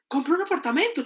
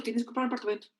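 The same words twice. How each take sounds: First: Higher, insistent order from a checklist; insistent demand. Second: Dutiful echo. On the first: Everyone expects it of us, insistent high demand. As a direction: press the next demand on them. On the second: Repeating what everyone expects, dutiful lowered echo. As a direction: recite it back as a chore. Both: Acted. Expectation, then compliance ticked off.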